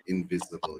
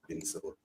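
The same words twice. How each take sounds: First: "invisible" said right, with a soft "viz" middle; corrected word. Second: "invincible" said by mistake, with a hard "vin-sih-bull" middle; wrong word slip. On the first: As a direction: correct yourself to "invisible", quieter. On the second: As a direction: slip into "invincible" instead of invisible. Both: Real, not acted.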